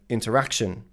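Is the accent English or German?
English. It is said with an English accent. The speaker calls it right. "instead of interaction"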